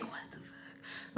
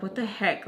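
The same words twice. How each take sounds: First: Slow, voiceless whisper; whispered disbelief. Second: Said in the usual way. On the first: Retold or imitated. Thinking to oneself while giving no reaction, whispered disbelief. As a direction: whisper it as a stunned private thought. Retold silent inner reaction.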